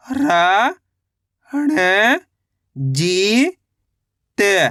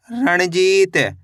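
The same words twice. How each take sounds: First: Very slow, each syllable of Ranjit drawn out; teacher stretching Ranjit into its parts. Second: Said in the usual way. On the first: Shown as a demonstration. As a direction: sound out Ranjit slowly for a beginner. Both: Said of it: "कैसे पढ़ेंगे?".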